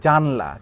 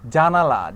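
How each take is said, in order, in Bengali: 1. মাঝের স্বরটি পুরোপুরি স্কিপ করে যাওয়া হয়। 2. মাঝের স্বরটি পুরোপুরি উচ্চারণ করা হয়। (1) "এই আটাকে স্কিপ করে আমি বলে দিলাম জানলা" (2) "জানালা না বলে"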